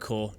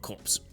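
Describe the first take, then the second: First: The word ends in an open 'core' sound. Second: The word ends with a 'ps' sound. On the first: The speaker calls it right. "it's Nova Corps" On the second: The speaker calls it wrong. "not Corpse"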